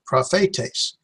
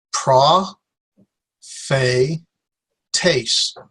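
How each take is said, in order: First: "prophetes" joined as pra-FAY-tays; whole word. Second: "pra", "fe", "taste" (tays) with long pauses between; three isolated syllables, "pra, fe, taste". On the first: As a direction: say "prophetes" in one go, no gaps. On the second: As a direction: sound out pra... fay... tays one syllable at a time. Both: Shown as a demonstration. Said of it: "There'll be three syllables".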